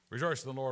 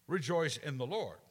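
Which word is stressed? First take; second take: rejoice; Lord. First: The word rejoice carries the main stress. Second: The word Lord carries the main stress. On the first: The focus is on the act of rejoicing. "we're stressing the word rejoice" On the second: The focus is on who is rejoiced in. "Let's have it be about the Lord"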